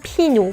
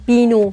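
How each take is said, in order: First: The first consonant is a voiceless p. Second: The first consonant is a voiced b. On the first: The speaker calls it right. "میگم پینو" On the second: The speaker calls it wrong. "نمیگم بینو"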